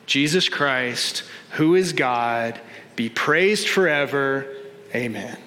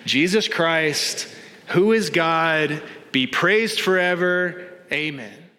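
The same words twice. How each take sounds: First: It is said with ordinary, lower energy. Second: It is said with stronger, more emphatic energy.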